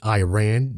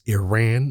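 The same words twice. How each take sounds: First: The first syllable sounds like eye. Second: The first syllable sounds like ee. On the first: The speaker calls it wrong. "it's not Iran. You didn't run for shit" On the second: The speaker calls it right. "it's Iran"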